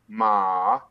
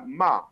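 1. يُنطق المقطع بنغمة وسطى. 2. يُنطق المقطع بنغمة هابطة. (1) "النغمة الثالثة ما نغمة متوسطة" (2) "النغمة الرابعة الهابطة"

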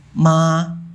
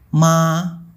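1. Nadanya tetap tinggi dan datar. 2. Nadanya tetap tinggi dan datar.

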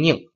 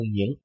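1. 这个音节读降调。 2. 这个音节读升调。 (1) "读四声宁" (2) "是二声"

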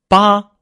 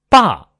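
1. 音高保持在高处，不变。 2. 音高从高处急速降到低处。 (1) "横" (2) "高起直降"

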